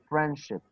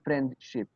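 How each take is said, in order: First: The d sound is dropped. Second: The d sound is clearly pronounced. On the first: The speaker calls it right. "You see, friendship" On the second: The speaker calls it wrong. "You do not say friendship"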